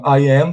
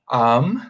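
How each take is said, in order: First: It is said as two separate full words. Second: It is said as one short contracted word. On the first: "Elas podem ser contraídas"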